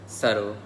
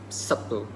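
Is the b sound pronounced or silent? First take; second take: silent; pronounced. First: The b sound is silent. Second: The b sound is clearly pronounced. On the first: This is the standard English pronunciation. "the usual standard English variation" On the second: This is the Singaporean English pronunciation. "They pronounce the B and they pronounce the T and L in a very direct way"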